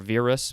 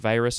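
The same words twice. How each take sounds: First: It is said with a Latin-style pronunciation. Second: It is said with an English-style pronunciation. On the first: "is probably how they would pronounce it" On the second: "The Latin virus"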